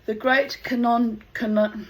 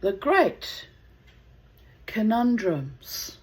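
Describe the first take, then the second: First: "canon" said instead of conundrums, stumbling; stumbling over the word. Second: "conundrums" said slowly, syllable by syllable; careful slow pronunciation. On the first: Real, not acted. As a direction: trip over "The great canon" mid-word. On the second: Shown as a demonstration. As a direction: carefully sound out "The great conundrums". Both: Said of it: "can't even pronounce that word".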